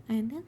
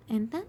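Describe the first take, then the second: No difference in how they are said.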